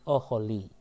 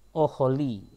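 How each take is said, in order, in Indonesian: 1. Vokal pertama adalah 'o' pendek. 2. Vokal pertama adalah 'o' pendek.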